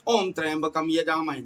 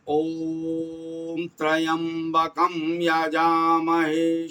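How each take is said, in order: First: It is said quickly and hurriedly. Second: It is said slowly with full breath and energy. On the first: The speaker calls it wrong. "जल्दी जल्दी" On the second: The speaker calls it right. "पूरी ऊर्जा और श्वास खींच करके"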